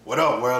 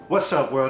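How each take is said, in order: First: The greeting is said with little enthusiasm. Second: The greeting is said with more enthusiasm.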